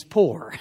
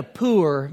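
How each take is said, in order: First: Said in the usual way. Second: "poor" drawn out as "poo-er"; Louisiana pronunciation. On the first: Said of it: "poor means poor". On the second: Shown as a demonstration. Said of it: "in Louisiana, poor means poor".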